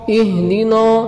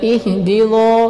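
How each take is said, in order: First: The word is said with a light, thin sound. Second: The word is said with a heavy, thickened sound. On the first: The speaker calls it right. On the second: The speaker calls it wrong.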